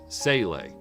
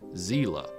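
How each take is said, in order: First: It is said the English way. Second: It is said the German way. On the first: This is the form used in the English dubs. "In the original English dub of the series, it was pronounced" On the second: This is the form of the word's source language. "which is the German pronunciation since it's a German word"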